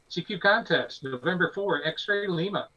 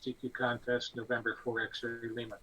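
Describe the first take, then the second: First: The call is delivered with an excited voice. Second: The call is delivered flatly, without excitement.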